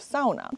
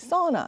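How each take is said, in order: First: The word has the Finnish pronunciation. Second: The word has the American pronunciation. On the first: "instead of sauna" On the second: "Americans and those outside of Finland started to say sauna"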